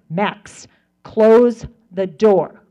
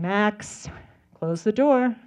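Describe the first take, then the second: First: It is said in a stern mommy voice. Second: It is said in a normal, plain voice.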